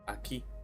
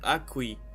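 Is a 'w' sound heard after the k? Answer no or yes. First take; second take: no; yes. First: No 'w' sound follows the k sound. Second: A 'w' sound follows the k sound. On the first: The speaker calls it right. "the U is not pronounced ever" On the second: The speaker calls it wrong. "So it's not"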